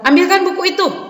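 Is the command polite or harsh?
harsh. It is said harshly, like a snapped order.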